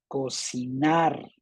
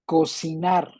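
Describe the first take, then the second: First: Slow "Cocinar", stretched on the final NAR; stress on NAR. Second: Said in the usual way. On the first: Shown as a demonstration. Teacher helping students find the tonic syllable, NAR stretched in "Cocinar". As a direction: draw out the last syllable of "Cocinar". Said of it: "la sílaba fuerte, la tónica". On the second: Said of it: "localiza la palabra fuerte".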